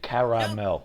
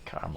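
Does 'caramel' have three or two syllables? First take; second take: three; two. First: The word has three syllables, with both vowels. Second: The word has two syllables, the middle vowel dropped. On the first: The speaker calls it right. "There are two A's. There's caramel" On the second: The speaker calls it wrong. "not caramel"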